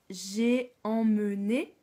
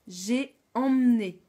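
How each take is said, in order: First: It is said slowly, with every sound clear. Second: It is said fast, with sounds run together. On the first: "Quand je parle lentement" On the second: "Mais quand je parle vite"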